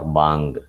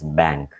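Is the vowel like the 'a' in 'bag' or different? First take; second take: different; like bag. First: The vowel is replaced by a different vowel. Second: The vowel is the open 'a' of 'bag'. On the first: The speaker calls it wrong. "They will either pronounce it as bang or bang, because the sound is not available" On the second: The speaker calls it right. "pronounce B A N K as bank"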